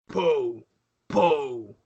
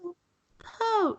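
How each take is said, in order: First: The voice is deep and masculine. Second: The voice is higher and feminine. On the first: "in a deep masculine voice" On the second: "more feminine"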